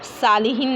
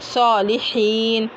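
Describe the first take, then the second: First: The first consonant is thin and light. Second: The first consonant is heavy and full. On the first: The speaker calls it wrong. "उसको आप सालिहीन नहीं पढ़ सकते" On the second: The speaker calls it right. "उसको पूरी ही पढ़ना है।"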